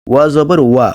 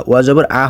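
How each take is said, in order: First: ওয়া with rounded lips, a full "wa"; correct wa. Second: ওয়া জবর আ ending on bare "a", no w; mistaken bare a. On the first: Teacher drilling the letter, ওয়া as full "wa". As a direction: say ওয়া জবর ওয়া ending on a clear w glide. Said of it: "ওয়া জবর আ হয় না". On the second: Teacher showing the error, final আ without w. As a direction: drop the w glide on the final আ. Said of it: "হয় না". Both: Shown as a demonstration.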